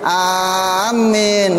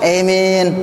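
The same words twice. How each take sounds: First: The first vowel is long and m is doubled. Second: The long vowel is bent toward an e sound. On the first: "bil maddi dengan mad wa tasydid dan tasydid" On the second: "bil imalah. Ada ee-nya tuh kalau imalah"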